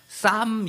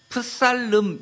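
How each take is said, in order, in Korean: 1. P와 L 둘 다 묵음입니다. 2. P와 L 둘 다 발음됩니다. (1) "쌈 이렇게 읽습니다. 앞에 P는 묵음이라고 하고 ... L도 묵음으로" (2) "프살름 이렇게 읽지 않죠?"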